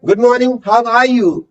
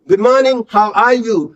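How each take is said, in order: First: "Good morning, how are you?" said very slowly, every word drawn out; slow model read. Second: Said in the usual way. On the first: Shown as a demonstration. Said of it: "natural tone रखो और तीन बार repeat करना है". ("Good morning, how are you?" बहुत धीरे-धीरे, हर शब्द खींचकर) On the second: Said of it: "natural tone रखो".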